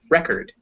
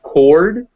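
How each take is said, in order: First: The final syllable has a reduced schwa vowel. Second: The final syllable has a full 'or' vowel. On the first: "When it becomes unstressed, it just turns into a schwa" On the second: "when it's that full vowel, that O sound"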